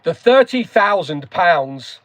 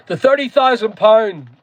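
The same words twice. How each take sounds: First: THIRTY THOUSAND POUNDS slow and carefully enunciated; slow right down and pronounce each word fully; careful corrected pronunciation. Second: Broad Northern Irish pronunciation of THIRTY THOUSAND POUND; Northern Irish accent. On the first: Shown as a demonstration. Streamer redoing the figure after an accent slip, careful pronunciation. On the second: Real, not acted. Streamer slipping into home speech mid-explanation, Northern Irish accent. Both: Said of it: "I said that with a Northern Irish accent".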